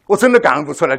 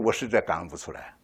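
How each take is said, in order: First: 的 stressed and pushed louder; louder plea. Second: Quiet plea. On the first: Kneeling man insisting to God he cannot give thanks, louder. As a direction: insist it more strongly. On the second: Kneeling man confessing to God, soft and low. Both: Retold or imitated. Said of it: "你们能不能同情我".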